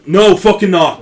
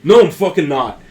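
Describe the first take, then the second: First: Put-on shouted line in an Irish accent. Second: Put-on loud, gruff and without the Irish accent; loud gruff retort. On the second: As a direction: snap it back hard, no Irish accent. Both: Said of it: "no, that was Irish".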